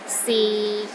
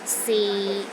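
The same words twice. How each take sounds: First: The pitch is low and steady. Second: The same.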